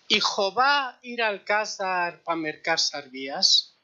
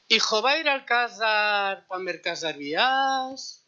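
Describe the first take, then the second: First: It is said with plain, ordinary intonation. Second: It is said with the Haketia intonation. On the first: "esto en jaquetía sería" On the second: "la entonación sería"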